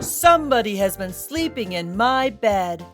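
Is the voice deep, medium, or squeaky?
deep. A big, booming, deep voice is used.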